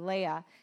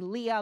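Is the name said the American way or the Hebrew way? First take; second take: Hebrew; American. First: The name is said with a Hebrew-style pronunciation. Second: The name is said with an American pronunciation.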